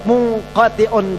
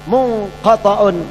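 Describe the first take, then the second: First: The vowel after the t is 'i'. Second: The vowel after the t is 'a'. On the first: It names the thing that is cut off. "Kalau ta-nya dibaca kasrah itu menjadi isim zat" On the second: It names the abstract idea of being cut off. "Kalau ta-nya dibaca fathah itu isim makna"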